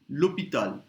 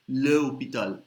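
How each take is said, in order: First: The article is joined to the noun's vowel. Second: The article is a separate syllable before the noun. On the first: The speaker calls it right. "you put it like this" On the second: The speaker calls it wrong. "It sounds clumsy"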